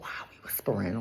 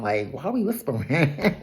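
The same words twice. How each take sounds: First: Hushed, low imitated whisper. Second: Hushed retelling breaking into a laugh; lightly hushed, questioning lift, then laughter; mock whispering. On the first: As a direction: drop right down to a secretive murmur. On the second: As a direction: softly repeat it, amused, laughing at the end. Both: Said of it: "they're whispering, and Ink is like".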